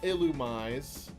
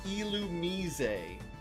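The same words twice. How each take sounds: First: The start sounds like the word 'illuminate'. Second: The start does not sound like 'illuminate'. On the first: The speaker calls it wrong. "not Illumise, even though it's illuminating stuff" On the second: The speaker calls it right. "It's supposed to be"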